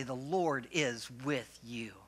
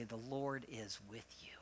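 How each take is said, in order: First: Slow, sincere, with conviction; like you mean it. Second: Soft, limp mumble, barely committing; half-hearted mumble. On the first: Pastor modelling the reply for the congregation, slow and heartfelt. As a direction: say it slowly and mean every word. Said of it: "you gotta say it like you mean it". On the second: Pastor showing the congregation's weak reply, mumbled softly. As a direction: mutter it like you don't mean it. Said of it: "No, you gotta say it like you mean it". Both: Shown as a demonstration.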